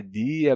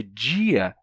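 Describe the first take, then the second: First: Said in the usual way. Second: "dia" with a J sound, DJI-a; palatalized D. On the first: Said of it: "nordestino tem sotaque por dizer dia". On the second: Shown as a demonstration. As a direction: soften the D of "dia" into DJ. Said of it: "mas ela, por dizer dia". ("dia" chiado, djia)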